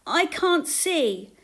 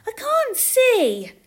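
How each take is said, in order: First: High, drawn-out call for help. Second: Put-on very high, loud, slow child's complaint; little girl. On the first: Blind woman calling to Jesus from a crowd, pleading call. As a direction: call out loudly and slowly, pitch falling at the end. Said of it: "called a blind woman". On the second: Little girl to her mother in a crowd, childish complaint. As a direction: whine it high like a small child. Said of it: "said a little girl". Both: A narrator's reading.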